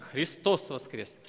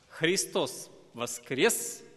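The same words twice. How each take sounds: First: It is said as a flat, final statement. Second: It is said with a questioning, asking tune. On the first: It is simply asserted as a fact. "не просто как утверждающий так" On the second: It asks whether the listener believes it. "звучал еще и как бы вопрос"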